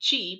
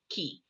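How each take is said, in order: First: The word begins with a ch sound. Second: The word begins with a k sound. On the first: The speaker calls it wrong. "Some people pronounce it chi" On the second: The speaker calls it right. "but it's actually ki"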